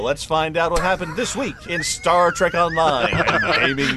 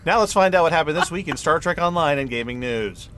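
First: It is said slower, with lots of feeling. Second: It is said plainly, with little feeling.

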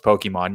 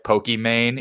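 First: The last syllable sounds like 'mon'. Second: The last syllable sounds like 'mane'. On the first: It is the usual way of saying it. The speaker calls it right. "I know you know it's Pokemon" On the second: It is said oddly on purpose to tease. The speaker calls it wrong. "purposely pronounce things like Pokimane"

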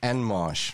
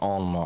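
First: The name is said in a plain English way. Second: The name is said with a French twang. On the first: The speaker calls it right. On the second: The speaker calls it wrong.

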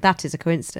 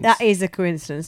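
First: The word 'is' carries no special emphasis. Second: The word 'is' carries strong emphasis. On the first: It simply notes a coincidence. The speaker calls it right. "sorry, it's just a slip of the tongue" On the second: It implies such things are usually not coincidences. The speaker calls it wrong. "Why are you putting the emphasis on his?"

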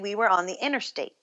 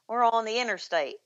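First: It is said in the speaker's plain accent. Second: It is said in a Tennessee accent.

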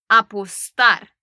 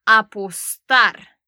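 No difference in how they are said.

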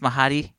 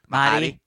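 First: The name is said with three syllables. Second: The name is said with two syllables. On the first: The speaker calls it wrong. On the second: The speaker calls it right.

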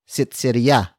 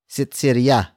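No difference in how they are said.

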